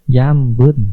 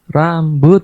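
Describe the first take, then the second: First: The word begins with a Y sound. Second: The word begins with an R sound. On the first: The speaker calls it wrong. "si anak tersebut membacanya yambut" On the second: The speaker calls it right. "coba sekarang ucapkan rambut"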